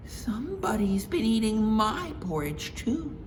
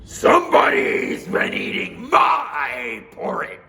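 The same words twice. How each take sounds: First: Mama Bear voice. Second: Slow, loud, gruff bear; Papa Bear voice. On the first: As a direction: agree brightly with Papa. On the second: Papa Bear warning his family, slow and loud. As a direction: growl out the warning slowly. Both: Acted.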